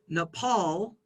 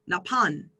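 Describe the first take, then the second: First: The word ends with an L sound. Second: The word ends with an N sound. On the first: This is the English pronunciation. "we pronounce Nepal" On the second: This is how a Thai speaker says it. "Thai speakers would pronounce Napan"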